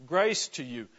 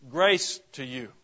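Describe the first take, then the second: First: Said in the usual way. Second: Slow, loud "Grace to you" with GRACE leaned on; solemn emphasis. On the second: Shown as a demonstration. Preacher declaring Paul's greeting, slow and weighty. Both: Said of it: "God's unmerited and abounding grace".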